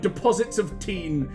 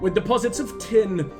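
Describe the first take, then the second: First: The last word has a long 'ee' vowel. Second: The last word has a short 'i' vowel.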